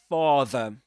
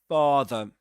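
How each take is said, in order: The two takes are said the same way.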